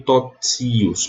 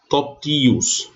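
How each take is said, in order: First: "totios" said as tot-SI-us, with a ts; wrong reading with tsi. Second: "totios" said slowly as to-TI-us, with a plain t; hard T reading. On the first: Teacher showing students how not to read the word, demonstrating the tsi sound. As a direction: put a hissed ts in the middle of "totios". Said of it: "Aqui eu não leio totios". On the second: Teacher showing the stressed I keeps its T, demonstrating pronunciation. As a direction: stress the TI in "totios", pure t without hiss. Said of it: "mas totios". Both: Shown as a demonstration.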